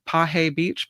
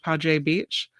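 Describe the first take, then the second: First: The middle consonant is an H sound. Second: The middle consonant is a J sound. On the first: "So I pronounce it Pahe" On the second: "but it could be Paje"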